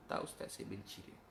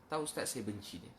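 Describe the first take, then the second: First: Put-on near-whispered, the boy muttering it again; a quiet, sullen echo; hushed boy's answer. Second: Said in the usual way. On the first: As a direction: let it drop to a breath. Boy's answer repeated, softly.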